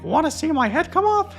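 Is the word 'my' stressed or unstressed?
unstressed. The word 'my' is not stressed.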